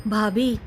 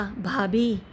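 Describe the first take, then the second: First: Said in the usual way. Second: Mild tearful. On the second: A narrator's reading. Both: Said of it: "गौरव रोते हुए बोला".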